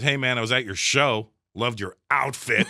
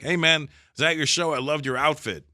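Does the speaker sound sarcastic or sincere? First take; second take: sarcastic; sincere. First: It is said in a snide, sarcastic tone. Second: It is said in a warm, sincere tone. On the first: The compliment is a hidden insult. "they're just subtly calling me dick" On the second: The compliment is meant genuinely. "they probably meant it like"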